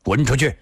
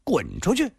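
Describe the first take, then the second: First: Short, severe order; stern command. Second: High, incredulous repeat; indignant echo. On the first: Afei blocking the drunk youth, sternly. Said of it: "厉声地说道". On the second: Drunk youth echoing the order, indignantly. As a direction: throw the order back, pitched high. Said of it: "少年叫了起来". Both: A narrator's reading.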